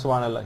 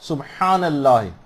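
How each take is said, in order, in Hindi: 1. 'h' कमज़ोर है और साफ़ नहीं निकलती। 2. 'h' एक साफ़, मज़बूत गले वाली आवाज़ है।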